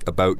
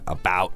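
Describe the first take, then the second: First: It is said with a Canadian accent. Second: It is said with an American accent. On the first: "about just sneaks out" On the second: "I try my best to say about"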